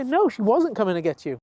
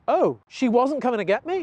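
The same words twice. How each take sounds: First: Firm answer with a falling end; higher-pitched trainer's reply, falling at the end; reassuring correction. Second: Higher, surprised questioning dog voice; dawning realization, rising into a question; Athena. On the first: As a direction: settle the dog's question, ending downward. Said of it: "And we say". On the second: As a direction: ask it as a puzzled dog catching on. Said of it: "and Athena goes". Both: Acted.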